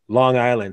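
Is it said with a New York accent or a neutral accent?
neutral. It is said in a careful neutral accent.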